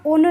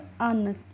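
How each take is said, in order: First: The vowel is a rounded 'oo' sound. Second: The vowel is an open 'uh' sound. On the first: The speaker calls it wrong. "इसका उन नहीं होता है" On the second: The speaker calls it right. "यू N का होता है उच्चारण अन"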